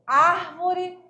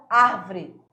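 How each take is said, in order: First: ÁRVORE in three syllables, AR-vo-re; full pronunciation. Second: ÁRVORE squeezed to AR-vre; second "árvore" drops its middle O; incorrect pronunciation. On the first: Teacher shows what orthoepy defines, full pronunciation. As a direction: say "árvore" with its middle O kept. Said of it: "definir a pronúncia". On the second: Teacher shows what to avoid, squeezed pronunciation. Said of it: "e não árvore". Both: Shown as a demonstration.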